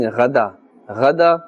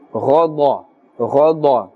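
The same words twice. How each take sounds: First: Ghada with light, open "a" vowels; incorrect thin tone. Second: Ghada with both vowels dark and rounded, nearly "ghaw-daw"; thick, full-mouthed tone. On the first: Teacher shows the mistake, thin light ghada. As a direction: say ghada thin, without filling the mouth. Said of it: "is incorrect". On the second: Teacher models heavy letters, thick full-mouthed ghada. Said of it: "pronounced with a thick tone". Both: Shown as a demonstration.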